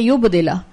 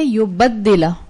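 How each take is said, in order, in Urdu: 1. d کی آواز مختصر ہے، دوہری نہیں۔ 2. d کی آواز دوہری ہے اور زیادہ دیر تک ادا ہوتی ہے۔ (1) "ایک قرت جو ہم پڑھتے ہیں وہ ہے" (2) "اس میں صرف ایک تشدید کا اضافہ ہو گیا"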